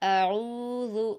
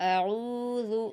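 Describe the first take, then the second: The two takes are said the same way.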